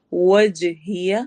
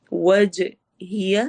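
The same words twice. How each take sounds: First: Slow وَجْهِيَ with rounded lips on waw and a bouncing jeem; slow teaching demo of وَجْهِيَ; careful tajweed. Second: وَجْهِيَ very slow, the jeem given an echoing bounce; slow demo of qalqalah in وَجْهِيَ. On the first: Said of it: "واو میں ہونٹ گول ہوں گے". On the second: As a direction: let the jeem in وَجْهِيَ shake and echo. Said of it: "قلقلہ کی sound ہوگی". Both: Shown as a demonstration.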